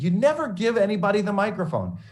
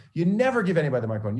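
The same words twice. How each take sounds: First: High, loud scolding mentor; mock scolding. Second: Mock scolding. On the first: Mentor scolding student over microphone, loud and high. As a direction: lay down the rule, pitched high and loud. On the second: Mentor repeats rule.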